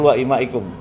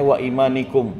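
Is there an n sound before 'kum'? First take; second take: no; yes. First: No n sound comes before 'kum'. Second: An n sound comes before 'kum'. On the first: The speaker calls it right. "Yang betul" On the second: The speaker calls it wrong. "Tadi bacanya"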